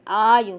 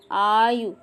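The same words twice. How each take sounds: First: आयु ending on a short, clipped उ. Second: आयु with a long drawn ऊ sound at the end; wrong long u in आयु. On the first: Teacher correcting students, short उ in आयु. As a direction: say आयु with a quick short final उ. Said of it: "छोटा ऊ की मात्रा लगती है". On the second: Teacher showing students the wrong form, long ऊ in आयु. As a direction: say आयु stretching the final vowel into a long ऊ. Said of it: "आयु नहीं है". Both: Shown as a demonstration.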